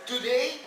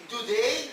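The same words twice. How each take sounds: The two takes are said the same way.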